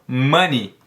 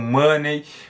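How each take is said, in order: First: The word ends with an 'ee' vowel sound. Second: The word ends with an 'ay' vowel sound. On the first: The speaker calls it right. "são pronunciadas como I. Então, money" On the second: The speaker calls it wrong. "Muita gente acaba errando, pronunciando como money"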